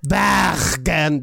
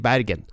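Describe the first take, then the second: First: The r is a throaty sound at the back. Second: The r is made with the tongue tip. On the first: This is the local way that is not actually needed. "De trenger ikke å si" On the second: This is the way they are able to say it instead. "De kan si"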